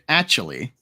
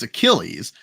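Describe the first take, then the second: First: The name sounds like the word 'actually'. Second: The name is said in the standard way. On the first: "but they say it"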